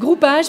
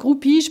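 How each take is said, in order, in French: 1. La dernière syllabe se dit 'page'. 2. La dernière syllabe se dit 'pige'. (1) "Ça veut dire groupage" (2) "c'est la synthèse vocale qui ne sait pas parler français"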